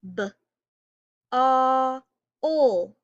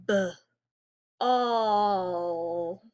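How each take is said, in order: First: B, a, ol stretched loud, each sound held apart; sounding out words. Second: B, all split in two slow parts; sounding out words. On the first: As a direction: tap ball out as B, a, ol. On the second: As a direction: stretch ball into B and all. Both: Shown as a demonstration. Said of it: "just try saying the word ball really slow".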